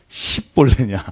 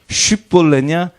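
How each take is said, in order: First: The word begins with an 's' sound. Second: The word begins with an 'sh' sound. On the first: This pronunciation gave away the Ephraimites. The speaker calls it wrong. "바로 말하지 못하고 십볼레라고 발음하면" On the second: This is the pronunciation the Gileadites demanded. The speaker calls it right. "이 발음 차이입니다"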